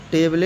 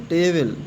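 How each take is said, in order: First: "टेबल" misread as "table-ay", final e voiced; wrong final e sounded. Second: "टेबल" ending on the l; silent final e. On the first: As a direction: add an audible e to the end of "टेबल". ("टेबल" के अंत का ई बोलकर, "टेबले" जैसा गलत उच्चारण) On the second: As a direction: say "टेबल" with no vowel after the l. ("टेबल" के अंत का ई साइलेंट रखकर) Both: Shown as a demonstration. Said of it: "टेबल नहीं पढ़ेंगे".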